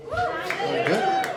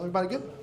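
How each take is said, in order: First: Squeaky high. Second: Said in the usual way. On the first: Shown as a demonstration.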